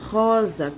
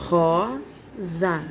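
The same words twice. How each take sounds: First: Said in the usual way. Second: Rosa spelled out slowly as she writes; slow, stretched Rosa; syllable by syllable. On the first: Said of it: "desenho da rosa". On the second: Shown as a demonstration. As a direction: sound out Rosa while writing. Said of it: "está assim".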